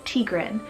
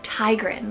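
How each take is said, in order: First: The first part does not sound like 'tiger'. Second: The first part sounds like the word 'tiger'. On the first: The speaker calls it right. "the correct pronunciation is Tigran" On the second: The speaker calls it wrong. "I've been pronouncing it as like Tigran, like tiger"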